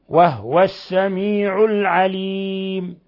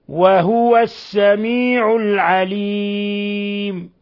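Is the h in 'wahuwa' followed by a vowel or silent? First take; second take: silent; vowel. First: The h of wahu is said without a vowel. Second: The h of wahu is followed by a vowel. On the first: This follows one reading tradition. "قالون أبو عمرو الكسائي أبو جعفر بالإسكان" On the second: This follows another reading tradition. "الباقون بالتحريك كقراءة حفص"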